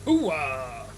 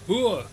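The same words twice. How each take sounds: First: Loud gruff movie soldier bark; a hint of Pacino's gravelly hooah. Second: High, loud Marine battle cry; loud gung-ho soldier. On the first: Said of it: "That was Al Pacino style". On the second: Shown as a demonstration. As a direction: bark it like a proud Marine.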